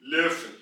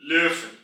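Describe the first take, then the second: The two takes are said the same way.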